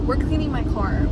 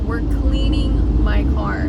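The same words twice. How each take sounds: First: Said in the usual way. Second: Slower and louder, leaning on "cleaning"; loud, drawn-out "cleaning" as a pep talk to self; emphatic, slow: We're cleaning my car. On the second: Shown as a demonstration. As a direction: announce "cleaning" with firm resolve.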